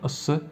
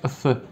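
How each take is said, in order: First: The s is said plainly, without lisp. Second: The s is said with a lisp.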